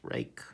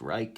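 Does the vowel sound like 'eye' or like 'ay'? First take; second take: ay; eye. First: The vowel sounds like 'ay'. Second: The vowel sounds like 'eye'. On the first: The speaker calls it right. "it's rake" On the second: The speaker calls it wrong. "it's not pronounced Reich"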